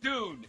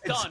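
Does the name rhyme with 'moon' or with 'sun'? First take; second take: moon; sun. First: The vowel is long, like in moon. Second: The vowel is short, like in sun. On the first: The speaker calls it wrong. "It's not Dune" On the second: The speaker calls it right. "It's done"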